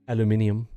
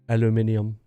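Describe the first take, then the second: No difference in how they are said.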